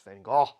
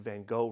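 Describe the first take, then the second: First: The G sounds are said the Dutch way. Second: The G sounds are said the English way. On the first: The speaker calls it right. "because it's Van Gogh" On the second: The speaker calls it wrong. "you've been saying Van Gogh wrong"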